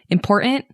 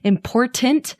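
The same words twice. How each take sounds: First: The middle T is dropped. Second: The middle T is pronounced clearly.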